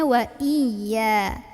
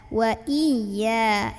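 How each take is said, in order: No difference in how they are said.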